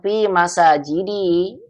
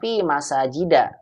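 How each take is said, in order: First: The last word ends with an 'i' vowel. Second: The last word ends with an 'a' vowel. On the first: The speaker calls it right. "tapi dibacanya fi masajidi" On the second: The speaker calls it wrong. "bukan fi masajida"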